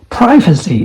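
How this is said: It is said in an American accent. "is American accent"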